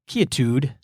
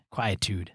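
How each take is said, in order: First: "quietude" opened with KEE, no W glide; quietude as key-a-tood. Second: "quietude" opened with KWY, like quiet; quietude as kwy-a-tood. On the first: Podcaster puzzling over the boots' name, "quietude" said KEE-uh-tood. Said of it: "I would name it quietude". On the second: Podcaster checking the boots' name, "quietude" said KWY-uh-tood. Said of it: "Is it quietude?". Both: Shown as a demonstration.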